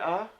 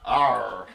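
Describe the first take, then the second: First: The letter is said in a non-American accent. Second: The letter is said in an American accent. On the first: "with my accent" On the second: "my best American accent for R"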